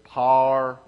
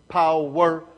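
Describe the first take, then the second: First: It is said in a southern Missouri accent. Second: It is said in a standard, carefully stressed way. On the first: "if you're from southern Missouri, it's power" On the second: "we tried to pronounce put emphasis on the word"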